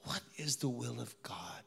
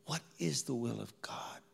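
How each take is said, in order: First: Breathy whisper, searching; whispered question. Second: Said in the usual way. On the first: Real, not acted. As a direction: ask it under your breath. Inner question in ICU.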